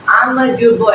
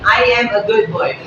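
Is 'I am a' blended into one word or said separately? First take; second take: blended; separate. First: 'I am a' is blended into one quick 'amma'. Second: 'I am a' is said as three separate words. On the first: "you can turn the I am a into Amma" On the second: "the very first form of Amma, that is I am a"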